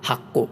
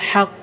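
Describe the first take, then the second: First: It begins with a light breathy h sound. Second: It begins with a tense h from mid-throat. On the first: The speaker calls it wrong. "ആ പാരായണം തെറ്റാണ്" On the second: The speaker calls it right. "തൊണ്ടയുടെ മധ്യഭാഗത്തു നിന്നു തന്നെ ഉച്ചരിക്കണം"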